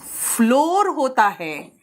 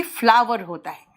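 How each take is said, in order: First: "फ्लोर" with one long "o"; slow, drawn-out "फ्लोर" as "floor"; floor option. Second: "फ्लावर" as two syllables, "fla-ver"; flower option. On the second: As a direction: say "फ्लावर" with an "ah" vowel. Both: Shown as a demonstration. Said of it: "इसका pronunciation".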